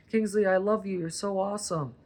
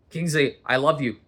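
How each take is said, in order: First: Higher, sing-song praise for the dog; sweet dog talk. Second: "Kingsley, I love you" barked louder, "love" hit hard; harsh "I love you". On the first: Telling the dog Kingsley he is loved in a cooing voice. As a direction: coo to the dog. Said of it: "Even the dogs can tell". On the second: Showing the dog Kingsley how tone beats words with a harsh scold. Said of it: "they can read tone". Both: Shown as a demonstration.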